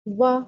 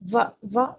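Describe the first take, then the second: First: The consonant is made with rounded lips. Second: The consonant uses upper teeth on lower lip. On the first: The speaker calls it right. "दोनों होंठों को गोल कीजिए" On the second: The speaker calls it wrong. "दोनों ऊपर के दाँतों को निचले होंठों में लगा रहे होते हैं, बिल्कुल गलत है"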